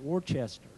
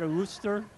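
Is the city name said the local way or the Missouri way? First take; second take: Missouri; local. First: The name is said in the Missouri way. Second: The name is said in the short local way. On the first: The speaker calls it wrong. "in Missouri, we want to pronounce that Worcester" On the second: The speaker calls it right. "I guess I pronounced that right"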